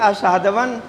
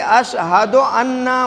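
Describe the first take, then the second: First: It is run together as one word, ashhadwan. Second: It is said as two separate words, ashhadu anna. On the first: The speaker calls it wrong. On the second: The speaker calls it right.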